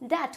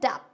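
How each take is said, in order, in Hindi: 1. t से पहले b की आवाज़ सुनाई नहीं देती है। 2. t से पहले b की आवाज़ सुनाई देती है।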